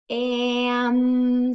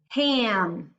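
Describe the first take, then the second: First: The word is stretched out slowly, sound by sound. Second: The word is said quickly as one whole unit.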